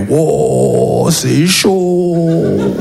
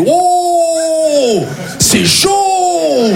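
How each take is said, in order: First: Long-drawn, much lower echo of alarm; deflated echo. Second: High, long-drawn-out cry of alarm; mock alarmed exclamation. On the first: Acted. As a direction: drag the words out, stunned. Own reply echoing friend's cry. (écho traînant, abattu) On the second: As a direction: stretch each exclamation out high. Acts friend's reaction on phone. (exclamation aiguë et traînante)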